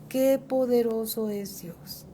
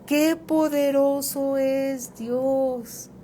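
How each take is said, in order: First: Said in the usual way. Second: "qué poderoso es Dios", slow and loud, each word weighed; emphatic declaration. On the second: Real, not acted. Preacher answers his grandson's words, slow and emphatic. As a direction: proclaim it slowly with full weight. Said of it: "Ahora sí te digo".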